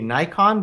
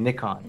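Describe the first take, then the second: First: Nikon is said in the American style. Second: Nikon is said in the UK/European style. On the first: This is how the speaker used to say it. "I used to say Nikon" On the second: This is how people in the UK and Europe say it. "I'm gonna start saying Nikon"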